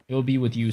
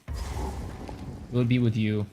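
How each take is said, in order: First: Said in the usual way. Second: Slow, drawn-out mock tender line; slow, hammed-up romantic declaration; mock romantic confession. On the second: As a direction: linger on it like a corny love confession. Confessing dream dinner date to Sanchez.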